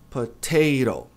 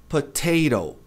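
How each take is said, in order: No difference in how they are said.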